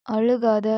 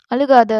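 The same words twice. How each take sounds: First: Said in the usual way. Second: Angry shout. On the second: Acted. Captor snaps at crying girl.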